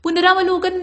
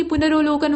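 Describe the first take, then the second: First: पुनरावलोकन with "raav" in the middle; wrong form. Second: पुनरोलोकन with "ro" in the middle; correct form. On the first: Teacher showing the mistake, पुनरावलोकन with long aa. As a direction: say पुनरावलोकन as "punaraavlokan". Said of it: "नहीं होता बल्कि". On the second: Teacher correcting it, पुनरोलोकन with o, no aa. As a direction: say पुनरोलोकन as "punarolokan". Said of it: "बल्कि पुनरोलोकन होता है". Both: Shown as a demonstration.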